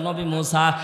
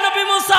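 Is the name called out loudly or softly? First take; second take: softly; loudly. First: The name is called out softly and quietly. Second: The name is called out loudly and forcefully. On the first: The caller has lost all hope of living. "কণ্ঠের ভাষা change হয়ে গেল, আস্তে করে ডাকতে বলে" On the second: The caller is still demanding and defiant. "এতক্ষণ ডাকতে বলে"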